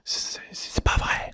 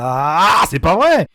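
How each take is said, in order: First: Whispered c'est pas vrai, ASMR style. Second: Loud angry c'est pas vrai; frustrated shout. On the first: Shown as a demonstration. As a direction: hush it as a despairing whisper. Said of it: "je vous la fais en A S M R". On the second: Real, not acted. Boss fight frustration outburst.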